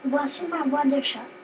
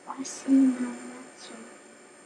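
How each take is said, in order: First: It is said at normal volume. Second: It is said at low volume.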